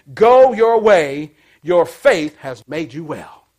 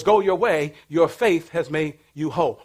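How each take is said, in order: First: Slow, drawn-out blessing; slow pronouncement. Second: Said in the usual way. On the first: Acted. Preacher to congregation, slowly voicing Jesus' blessing. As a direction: stretch each word out.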